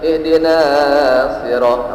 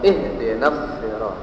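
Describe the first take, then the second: First: The vowel before the s is drawn out long. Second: The vowel before the s is kept short. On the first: The speaker calls it wrong. "tidak boleh dibaca" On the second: The speaker calls it right.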